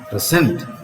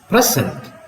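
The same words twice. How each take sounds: First: The stress is on the second syllable. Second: The stress is on the first syllable. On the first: "Here the stress is on the second syllable" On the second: "The stress is on the first syllable"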